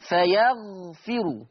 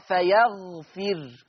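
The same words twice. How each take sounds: First: Slow "فيغفر" with a final u after the r; vowelled raa. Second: Slow "فيغفر" stopping on a bare r; still raa. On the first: Teacher giving the word before Warsh's change, slow "فيغفر" ending in ru. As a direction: recite "فيغفر" slowly, ending on ru. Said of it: "يقرأ ورش بسكون الراء". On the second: Teacher demonstrating Warsh, slow "فيغفر" with final r vowelless. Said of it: "ورش يقرأ بسكون الراء". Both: Shown as a demonstration.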